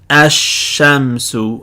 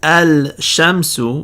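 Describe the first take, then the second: First: No L sound; the sh is doubled. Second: An L sound is pronounced before the sh. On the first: The speaker calls it right. "the lam is now silent" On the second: The speaker calls it wrong. "instead of saying"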